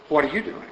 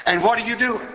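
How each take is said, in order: First: Said in the usual way. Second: "what are you doing" pitched high and emphatic; "what are you doing" lifted high; urgent question. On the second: Real, not acted. First asking, roused by bus scene.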